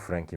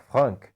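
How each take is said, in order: First: The name is said with a non-French pronunciation. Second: The name is said with a French pronunciation. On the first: This is the familiar everyday form. "então vamos ficar apenas com Frank mesmo" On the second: This is the name's original form. "Por ser francês, provavelmente a pronúncia correta"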